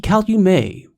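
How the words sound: The name is pronounced the French way.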